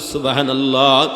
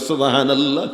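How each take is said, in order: First: It is said loudly and forcefully. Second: It is said at normal, softer volume.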